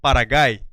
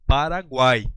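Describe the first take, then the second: First: The U after the G is silent. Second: The U after the G is pronounced. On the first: The speaker calls it wrong. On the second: The speaker calls it right.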